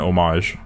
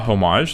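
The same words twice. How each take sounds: First: The word starts without an H sound. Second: The word starts with an H sound.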